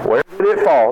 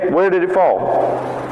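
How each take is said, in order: First: It sounds harsh and blaming. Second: It sounds calm and kind. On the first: The listener is blamed for the loss. The speaker calls it wrong. "what did you do? You know, this has got to be your fault" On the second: The speaker wants to help, not blame. The speaker calls it right. "No. Hey"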